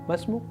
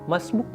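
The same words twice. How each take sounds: First: The words merge and the final vowel drops. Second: The words merge and the final vowel drops.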